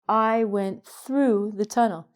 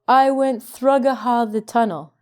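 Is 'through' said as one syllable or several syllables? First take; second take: one syllable; several syllables. First: 'Through' is said as one short syllable. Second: 'Through' is stretched into several syllables. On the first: The speaker calls it right. "pronounce it like the past tense of throw, which is through" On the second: The speaker calls it wrong. "your brain goes thrugaha"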